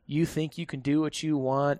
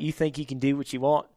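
First: It is said in the speaker's usual accent. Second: It is said in an Australian accent.

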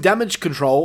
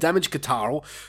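First: The second word is pronounced as 'control'. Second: The second word is pronounced as 'ka-tarl'.

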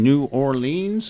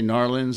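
First: The name is said in full, with all syllables. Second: The name is squeezed into two short syllables. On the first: The speaker calls it wrong. "never say it that way" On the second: The speaker calls it right. "So I'd say Narlands"

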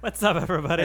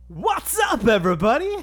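First: It is said calmly, with little energy. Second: It is said loudly, with big energy.

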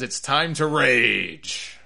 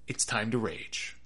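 First: It is said with lively, hyped energy. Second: It is said flatly with very little energy. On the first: "he didn't even say it that way" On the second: "It's very low key"

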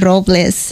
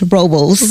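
First: The name is pronounced the Spanish way. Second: The name is pronounced the English way. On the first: This is how the name is properly said. The speaker calls it right. "instead of saying Robles" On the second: This is how the navigation voice says the name. The speaker calls it wrong. "it's Robles. I'm like, what the heck is Robles?"

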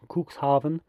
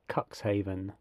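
First: The name is pronounced with German sounds. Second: The name is pronounced with English sounds. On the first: "my attempt at the German pronunciation of Cuxhaven" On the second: "an anglicised version would be Cuxhaven"

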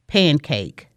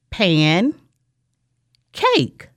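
First: The two parts are said with no break. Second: The two parts are said with a break. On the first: "Let's blend those together to make pancake" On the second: "I will say two words"

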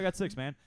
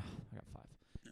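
First: It sounds confident and upbeat. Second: It sounds dejected and weary.

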